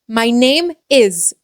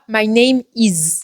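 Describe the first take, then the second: First: The vowel in 'my' sounds English. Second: The vowel in 'my' sounds French. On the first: The speaker calls it right. "si tu sais prononcer les i correctement" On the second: The speaker calls it wrong. "et non pas"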